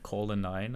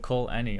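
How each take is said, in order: First: The name ends sounding like 'a nine'. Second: The name ends sounding like 'Annie'. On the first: The speaker calls it wrong. "I've been pronouncing that Call a nine" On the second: The speaker calls it right. "But Call Annie, okay"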